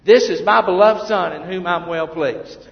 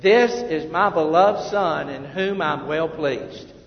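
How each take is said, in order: First: Louder repeat. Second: Slow, loud group reading of "This is my beloved Son"; read together aloud. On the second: Preacher leading the congregation in reading aloud slowly. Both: Real, not acted. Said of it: "let's read this together".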